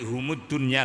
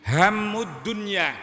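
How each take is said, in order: First: The first word begins with the sound 'hum'. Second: The first word begins with the sound 'ham'. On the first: It means they are the world. The speaker calls it wrong. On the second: It means the worries of the world. The speaker calls it right.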